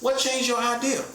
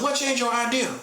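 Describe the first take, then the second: First: It is said in his normal voice. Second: It is said in an old-school person's voice.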